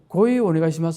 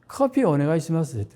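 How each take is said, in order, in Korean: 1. 커피는 일본식으로 발음해요: 'koohii'. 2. 커피는 한국식으로 발음해요: 'keopi'. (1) "일본말로 고이거든요" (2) "커피를 못 알아들어요"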